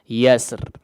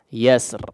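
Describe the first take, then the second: No difference in how they are said.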